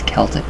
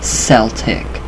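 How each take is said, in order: First: The word begins with a hard K sound. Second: The word begins with a soft S sound. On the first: The speaker calls it right. "Celtic is pronounced Kel, K E L, dash Tik" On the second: The speaker calls it wrong. "not Celtic"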